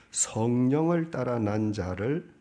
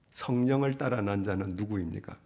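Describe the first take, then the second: First: 성령을 drawn out slowly, louder, rising at the end; stress on 성령을. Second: Said in the usual way. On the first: Shown as a demonstration. Preacher stressing 성령을 to the congregation, slow and louder. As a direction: lean on 성령을 and slow the whole phrase.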